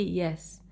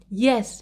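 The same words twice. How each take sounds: First: Said in the usual way. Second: Yes. punched with a raised, falling pitch; intonation on Yes. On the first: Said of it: "Do not simply say yes". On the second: Shown as a demonstration. Teacher showing students how to begin answers, emphatic Yes. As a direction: give "Yes." a strong emphatic lift. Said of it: "you should use intonation".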